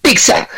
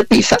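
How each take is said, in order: First: "pizza" said the Italian way, pee-tsa, slowly; "pizza" with a crisp ts, as in Italian. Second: "pizza" said with a lisped th: pee-tha; Spanish pizza. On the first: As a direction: pizza pronounced pitsa, Italian style. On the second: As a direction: pizza pronounced pitha, Spanish style. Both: Retold or imitated. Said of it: "si alguien me corrige diciéndome".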